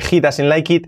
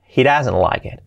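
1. Se dice con pronunciación al estilo español. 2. Se dice con pronunciación natural del inglés. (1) "no se dice he doesn't like it" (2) "es he doesn't like it"

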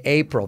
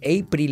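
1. La L se pronuncia a la manera nativa del inglés. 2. La L se pronuncia a la manera española. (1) "en vez de April" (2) "Decir April en vez de"

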